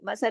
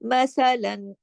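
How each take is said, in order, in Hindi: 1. शब्द लंबी 'a' ध्वनि पर समाप्त होता है। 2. शब्द 'n' ध्वनि पर समाप्त होता है।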